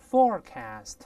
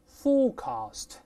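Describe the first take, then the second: First: American accent, with an r sound in the first syllable. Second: British accent, with no r sound in the first syllable. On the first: "前面加卷舌音，大声念forecast" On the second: "英式发音呢，前面发o 没有卷舌音"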